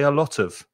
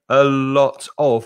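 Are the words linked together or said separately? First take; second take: linked; separately. First: The words run together into one linked unit. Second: Each word is said separately and fully. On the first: The speaker calls it right. "we say a lot of" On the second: The speaker calls it wrong. "we don't say a lot of"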